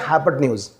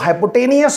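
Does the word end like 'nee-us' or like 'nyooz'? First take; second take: nyooz; nee-us. First: The word ends with a 'nyooz' sound. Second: The word ends with a 'nee-us' sound. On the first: The speaker calls it right. "इसको बोलना है हाइपोटेन्यूज" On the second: The speaker calls it wrong. "घोड़े को गधा मत बनाओ"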